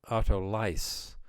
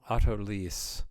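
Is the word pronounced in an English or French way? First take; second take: English; French. First: The word is given a British English pronunciation. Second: The word is given a French pronunciation. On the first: "I think the British say" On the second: "what the French call"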